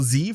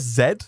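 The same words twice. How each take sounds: First: It is said the American way, as zee. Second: It is said the British way, as zed.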